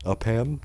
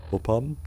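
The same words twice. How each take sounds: First: "Upham" as "up-HAM", rising; "Upham" with a clear "ham" as in the meat; trying a pronunciation. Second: "Upham" as "OH-pum", rising; "Upham" with a long O start and reduced second syllable; trying a pronunciation. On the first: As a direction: say "Upham" questioningly with a full "ham" ending. Tries the name another way. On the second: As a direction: say "Upham" questioningly with a weak "um" ending. Tries out an unfamiliar name. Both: Real, not acted.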